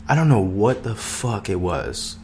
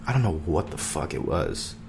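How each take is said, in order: First: Said in the usual way. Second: Dropped, softer and lower echo; softer repeat. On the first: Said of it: "repeated line said softer". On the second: Real, not acted. Repeating it to himself, softer and lower. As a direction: let it fall away to yourself. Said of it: "repeat of line 119".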